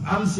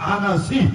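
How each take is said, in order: First: The name is said with two syllables. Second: The name is said with three syllables. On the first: The speaker calls it wrong. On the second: The speaker calls it right.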